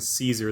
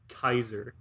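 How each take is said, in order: First: The word starts with an s sound. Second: The word starts with a k sound. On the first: The speaker calls it wrong. "we've been mispronouncing Caesar" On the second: The speaker calls it right. "pronounce a C with like a k sound"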